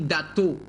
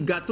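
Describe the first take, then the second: First: The word begins with a D sound. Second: The word begins with a G sound. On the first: This is how children with a speech delay say it. The speaker calls it wrong. "ils disent dato" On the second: This is the correct adult form. The speaker calls it right. "Au lieu de dire gâteau"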